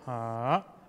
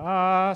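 First: The pitch dips down then rises slightly. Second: The pitch stays level throughout. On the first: "you go down first and a little bit going up a little bit" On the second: "the first sound is like, ah. So you don't really change the tone"

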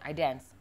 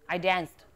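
First: The phrase ends without any 'd' sound. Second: The phrase ends with a clear 'd' sound. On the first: The speaker calls it wrong. "don't say I dance" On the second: The speaker calls it right. "You can hear that I said D at the end"

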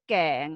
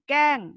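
First: The syllable is said with a rising tone. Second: The syllable is said with a falling tone. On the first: "เสียงจัตวา" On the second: "เสียงโท"

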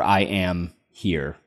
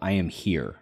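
First: There is a short pause inside the phrase. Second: It is said straight through without a pause.

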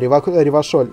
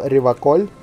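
First: The middle consonant is a soft sh sound. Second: The middle consonant is a hard k sound. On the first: The refined, modern way to say the name. "через утонченное ще" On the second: The old-fashioned, nationalist way to say the name. "он говорит Реваколь через К"

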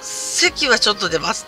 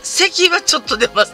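First: It is said at normal, quiet volume. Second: It is said in a loud voice.

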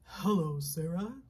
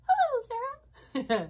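First: It is said in a very low voice. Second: It is said in a high voice.

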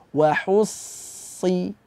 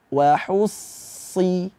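Both takes have the same delivery.

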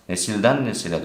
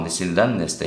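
First: The second word keeps its middle vowel. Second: The second word drops its middle vowel. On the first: The speaker calls it right. "doğru" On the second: The speaker calls it wrong. "yanlış"

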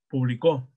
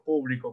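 First: The stress is on the last syllable. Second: The stress is on the first syllable. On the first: "Como aguda" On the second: "como esdrújula"

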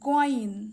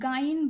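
First: The letter name is said with a heavy sound. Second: The letter name is said with a light sound. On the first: The speaker calls it right. "বলতে হবে গইন, এটি মোটা করে পড়তে হবে" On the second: The speaker calls it wrong. "অনেকে গাইন বলে, এরকম বলা যাবে না"

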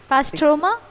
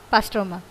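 First: The pitch rises at the end. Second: The pitch falls at the end. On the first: It is asked as a question. "Is that a question" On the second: It is given as a settled answer. "or you fixed it?"

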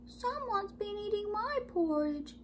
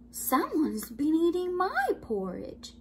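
First: The voice is tiny and high. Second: The voice is at a medium pitch. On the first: The baby bear is speaking. "in his wee small voice" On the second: The mother bear is speaking. "in her medium-sized voice"

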